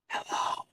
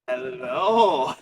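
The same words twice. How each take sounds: First: It is said very quietly. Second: It is said loudly, not quietly.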